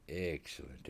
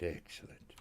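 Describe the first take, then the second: First: Said in the usual way. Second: Breathy whispered echo. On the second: Shown as a demonstration. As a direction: whisper the word excellent. Repeats word, second whispered.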